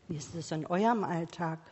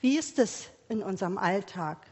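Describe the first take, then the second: First: Eurem singled out, quicker, softer, pointing at the listeners; stress on eurem. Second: Even question, weight on Wie; asking about our own lives. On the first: Preacher turning the question onto the congregation, stressing eurem. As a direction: lean on eurem to turn the question to them. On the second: Preacher asking the congregation about their own daily life, plain question. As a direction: ask Wie ist es in unserem Alltag plainly, falling at the end. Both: Shown as a demonstration.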